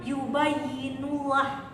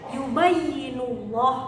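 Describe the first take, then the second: First: The final 'llah' is light and thin, like 'lah'. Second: The final 'llah' is heavy and thick, like 'loh'. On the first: The speaker calls it wrong. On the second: The speaker calls it right. "tafkhim ini dibaca tebal"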